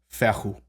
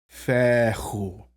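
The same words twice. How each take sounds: First: The word is said quickly. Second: The word is said slowly and carefully.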